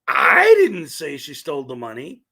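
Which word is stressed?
I. The word 'I' is stressed. Someone else said it. "which means somebody else said it"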